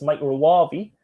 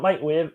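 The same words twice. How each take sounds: First: "microwave" said slowly, the correct way; slow, deliberate correct "microwave"; proper microwave. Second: "microwave" said the mocked, wrong way. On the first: Correcting Lainey's pronunciation of microwave, slow and deliberate. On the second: Teasing Lainey about saying microwave, mock wrong pronunciation. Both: Shown as a demonstration. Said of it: "We all know how to say it now, Lainey".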